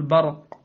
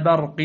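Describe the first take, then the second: First: "برق" with dark, backed a after b; wrongly heavy ba. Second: "برق" with thin front a after b; light ba. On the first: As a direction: thicken the ba of "برق". (تفخيم باء "برق") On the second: (ترقيق باء "برق") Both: Shown as a demonstration. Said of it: "لا تقل برق".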